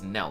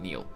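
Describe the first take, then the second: First: The vowel is a short eh sound. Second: The vowel is a long ee sound. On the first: The speaker calls it right. "it's knell" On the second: The speaker calls it wrong. "not kneel"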